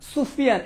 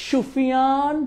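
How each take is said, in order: First: "সুফিয়ান" begun with a plain hissed s, as in "sun"; correct dental s. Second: "সুফিয়ান" wrongly begun with sh, last vowel drawn out; mispronunciation demo. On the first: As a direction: say "সুফিয়ান" with initial s, not sh. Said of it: "এটা দন্তস্ব". ("সুফিয়ান" দন্ত্য স দিয়ে, ইংরেজি s-এর মতো) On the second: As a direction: say "সুফিয়ান" as Shufiyaan, stretching the end. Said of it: "তুমি কেমন বলবা?". ("সুফিয়ান"-এর স-কে শ করে, টেনে ভুল উচ্চারণ) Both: Shown as a demonstration.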